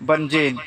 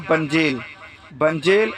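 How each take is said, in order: First: بنجین said ending on n, bənd͡ʒen; بنجین with final n as some South Asians say it; common variant pronunciation. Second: بنجیل said with a clear final l, bənd͡ʒil; بنجیل ending on l, the proper Arabic form; correct Arabic pronunciation. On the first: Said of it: "کچھ بولتے ہیں اس میں سے". (بنجین کو آخر میں ن کے ساتھ، جیسے کچھ لوگ بولتے ہیں) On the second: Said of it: "لیکن صحیح عربی کیا ہے؟". (بنجیل کو آخر میں صاف ل کے ساتھ) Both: Shown as a demonstration.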